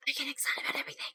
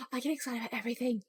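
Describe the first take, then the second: First: Soft, voiceless whisper. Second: Soft, quick, voiced murmur; quiet voice. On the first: Streamer confesses excitability to viewers, whispering. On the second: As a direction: say it fast and softly. Same words, first take before whisper. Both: Shown as a demonstration.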